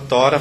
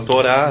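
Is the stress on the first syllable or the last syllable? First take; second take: first; last. First: The stress falls on the first syllable. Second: The stress falls on the last syllable. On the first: The speaker calls it wrong. "A gente não fala Tora" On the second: The speaker calls it right. "fala Torá"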